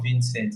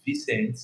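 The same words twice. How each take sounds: First: "Vincent" said with the first n sounded; wrong name pronunciation. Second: "Vincent" said as Vee-cent, without the first n; higher-pitched Vincent, pronounced Vee-cent; corrected name pronunciation. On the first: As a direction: say "Vincent" as Vin-sent, the common name. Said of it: "It's not Vincent". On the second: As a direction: say "Vincent" like the letter V plus cent. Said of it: "V C E N T". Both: Shown as a demonstration.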